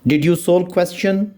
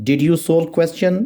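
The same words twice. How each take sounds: The two takes are said the same way.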